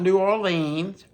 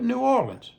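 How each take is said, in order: First: New Orleans is said in full, syllable by syllable. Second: New Orleans is squeezed together, close to Nolans. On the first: The speaker calls it wrong. "Not New Orleans" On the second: The speaker calls it right. "but New Orleans. Nolans"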